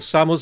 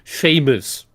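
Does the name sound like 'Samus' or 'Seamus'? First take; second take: Samus; Seamus. First: The name is said as 'Samus'. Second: The name is said as 'Seamus'. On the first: The speaker calls it right. "couldn't even pronounce right" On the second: The speaker calls it wrong. "she called Samus Aran Seamus"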